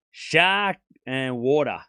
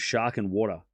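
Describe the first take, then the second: First: Slow, drawn-out Australian SHARK and WATER; Australian accent. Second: Said in the usual way. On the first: Shown as a demonstration. Showing chat the believable accent, Australian demo. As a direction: spell out each word in an Australian accent. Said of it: "with a believable Australian accent is shark and water". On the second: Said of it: "with a believable Australian accent".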